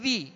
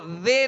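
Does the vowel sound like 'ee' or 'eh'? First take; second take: ee; eh. First: The vowel is a short 'ee' sound. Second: The vowel is an 'eh' sound. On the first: The speaker calls it right. "آواز کو گرا کے" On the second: The speaker calls it wrong. "زے نہیں"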